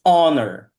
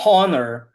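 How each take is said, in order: First: "honor" starting straight on the vowel; honor with silent H. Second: "honor" wrongly begun with a breathed H; honor with H sounded. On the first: Teacher correcting the student's word, "honor" with silent H. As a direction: drop the H from "honor". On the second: Teacher showing the mistake to avoid, "honor" with audible H. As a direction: pronounce the H in "honor". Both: Shown as a demonstration. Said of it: "The H in this word is silent".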